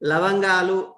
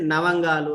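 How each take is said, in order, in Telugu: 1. ఈ పదం l ధ్వనితో మొదలవుతుంది. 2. ఈ పదం n ధ్వనితో మొదలవుతుంది. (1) "లవంగాలు అనేటువంటిది" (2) "నవంగాలు అని చెప్పేసి అంటుంటారు"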